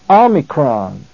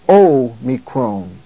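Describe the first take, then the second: First: The first vowel sounds like 'ah'. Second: The first vowel sounds like 'oh'. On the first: This is the classical Greek pronunciation. "The classical Greek pronunciation of this Greek letter is Omicron" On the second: This is the Koine Greek pronunciation. "But the Koine pronunciation of the letter is O"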